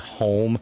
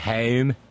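First: The O vowel has a general American sound. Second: The O vowel has a Southern West Virginia sound. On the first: "we don't say home" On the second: "we do funny things with the vowel O here. Like, we don't say home, we say home"

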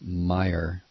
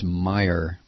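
The two takes are said the same way.

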